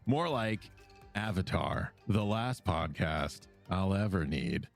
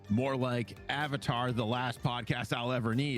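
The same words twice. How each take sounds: First: It is read with lively, expressive flair. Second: It is read plainly, without much expression.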